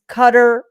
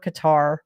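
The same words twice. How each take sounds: First: It is said with an American pronunciation. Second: It is said with a European pronunciation. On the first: "depending on if you're in America" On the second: "or in Europe"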